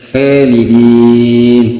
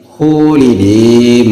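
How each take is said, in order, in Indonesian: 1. Vokal pertama tipis dan ringan. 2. Vokal pertama dibulatkan seperti u. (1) "khalidin tipis" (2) "menyerupai waw dia alifnya tadi"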